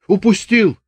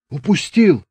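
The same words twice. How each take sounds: First: Lightly voiced Chubaty, high exclamation; Chubaty's voice. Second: Lightly voiced Chubaty, high again; Chubaty's voice. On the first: Chubaty announcing to the sergeant, lightly voiced. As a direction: toss it off high. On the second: Chubaty repeating to the sergeant, lightly voiced. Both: A narrator's reading.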